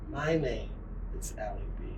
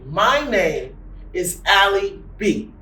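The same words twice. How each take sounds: First: It is said quietly and softly. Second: It is said loudly and strongly.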